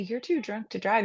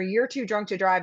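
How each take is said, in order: First: It is said in a gentle, caring tone. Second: It is said in a forceful, commanding tone. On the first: The speaker is trying to help. The speaker calls it right. "in a different tone" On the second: The listener is being forced and cornered. The speaker calls it wrong. "backed into a corner"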